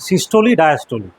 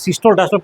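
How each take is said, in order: First: Each word ends with a final 'ee' sound. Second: Each word ends without a final 'ee' sound. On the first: The speaker calls it right. "সিস্টোলি বলবে, ডায়াস্টোলি বলবে" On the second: The speaker calls it wrong. "ভুল pronunciation"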